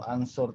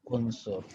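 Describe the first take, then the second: First: The word begins with an a vowel. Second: The word begins with a u vowel. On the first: The speaker calls it wrong. "atau ansur" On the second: The speaker calls it right. "tapi unsur"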